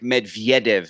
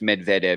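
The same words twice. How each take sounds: First: The name is said in a Slavic-sounding style. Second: The name is said in a plain English style. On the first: The speaker calls it wrong. "I was doing that kind of Slavic Medvedev" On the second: The speaker calls it right. "you're saying it's just Medvedev"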